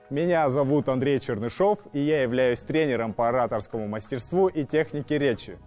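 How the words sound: It is spoken in a middle register.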